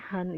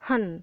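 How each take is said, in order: First: The pitch does not fall sharply. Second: The pitch falls sharply downward. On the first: It means very. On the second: It means hate.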